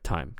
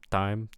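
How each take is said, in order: First: The t is said with a puff of air. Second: The t is said without a puff of air. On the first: The speaker calls it right. "but I want an aspirated T" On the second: The speaker calls it wrong. "it sounds like some of your word initial T's are unaspirated"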